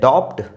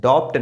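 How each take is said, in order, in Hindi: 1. "b" की ध्वनि "t" से पहले उच्चारित होती है। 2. "b" की ध्वनि "t" से पहले उच्चारित होती है।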